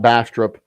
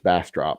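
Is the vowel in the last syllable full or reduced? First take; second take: reduced; full. First: The last syllable's vowel is reduced. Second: The last syllable's vowel is fully pronounced. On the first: The speaker calls it wrong. "it's not Bastrop" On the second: The speaker calls it right. "you pronounce the op"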